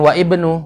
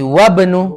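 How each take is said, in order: First: The 'i' sound is pronounced separately before 'bnu'. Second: The words are joined, dropping the 'i' sound. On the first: The speaker calls it wrong. "Jadi bukan wa ibnu, bukan" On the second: The speaker calls it right. "dia disambung. Jadi wabnu"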